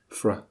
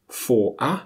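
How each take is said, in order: First: The words shrink into one short syllable. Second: Both words are said in full.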